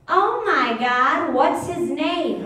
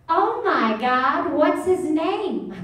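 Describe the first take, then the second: First: Slow, higher, louder mock gush. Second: Slow, high, gushing oh my God; mock a gushing dog lover; gushing woman impression. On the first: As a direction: throw her own gushing back at her. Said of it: "I'm gonna go". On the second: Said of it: "this is what she does".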